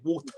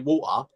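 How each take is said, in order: First: It is said in an American accent. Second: It is said in a London accent. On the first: "We don't say water" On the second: "I'm from London, ... We say water"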